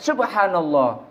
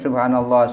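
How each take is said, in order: First: It is blurted out suddenly, as if startled. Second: It is said calmly, as steady recitation.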